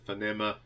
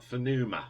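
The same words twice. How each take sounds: First: Phonema said as "fuh-NEM-uh"; alternative pronunciation. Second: Phonema said as "fuh-NOO-muh"; unsure pronunciation. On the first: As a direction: use an "eh" in the middle of Phonema. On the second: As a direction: stress a long "noo" in the middle of Phonema. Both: Real, not acted. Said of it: "don't know how you pronounce it".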